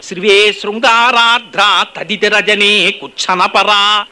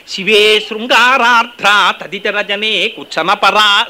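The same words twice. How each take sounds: First: Even slower verse chant; sloka recitation. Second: Slow drawn-out verse chant; sloka recitation. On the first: Preacher repeating the verse, slower chant. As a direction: stretch the verse out reverently. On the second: Preacher quoting Soundaryalahari, slow chant. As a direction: dwell on each word of the verse. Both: Acted.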